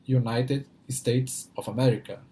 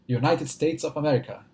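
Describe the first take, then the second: First: The phrase is said slowly. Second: The phrase is said quickly. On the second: "Quero ver falar rápido isso"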